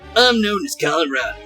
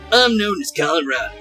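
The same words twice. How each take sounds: First: It is said in the voice used for Goombario. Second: It is said in the voice used for Goombario.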